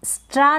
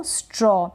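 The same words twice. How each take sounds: First: स्ट्रा with a long open "aa"; mispronounced straw. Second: स्ट्रॉ with rounded "aw"; correct aw sound. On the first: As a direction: say स्ट्रा as "straa", not "straw". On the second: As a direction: say स्ट्रॉ as "straw", not "straa". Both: Shown as a demonstration. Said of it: "स्ट्रा ना पढ़ें इसको".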